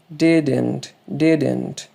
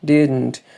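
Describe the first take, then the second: First: "didn't" as two syllables, DID-ent; full-vowel didn't. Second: "Didn't" as did-nt, held n, no second vowel; reduced didn't. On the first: Teacher offering another option, "didn't" said as did-ent. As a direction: sound a clear e before the n in "didn't". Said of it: "Ou você pode falar". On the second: Teacher giving the preferred form, "Didn't" with syllabic n. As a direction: go from d straight into n in "Didn't". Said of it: "que é a forma que eu gosto de fazer". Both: Shown as a demonstration.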